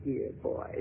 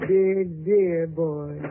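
First: Breathy whisper, low; whispered dear boy, teasing. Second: Put-on slow drawn-out dear, dear boy. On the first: Acted. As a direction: whisper it close to his ear. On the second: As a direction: stretch each dear out very slowly. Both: Stella teasing Slade.

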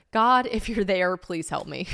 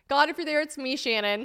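First: Pleading prayer. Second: High-pitched parody of a plea; mock prayer. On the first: Acted. Reading an old heartbroken journal, slow pleading. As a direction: draw out a heartfelt appeal to God. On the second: Joking about her own journal prayer, high mock plea.

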